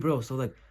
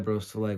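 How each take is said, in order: First: The voice is lively, warm and engaged. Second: The voice is flat, low and uninterested. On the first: The speaker genuinely cares about the listener. The speaker calls it right. "You see how I sound more interested" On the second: The speaker does not care about the listener. The speaker calls it wrong. "You sound dead. You sound like you don't care at all"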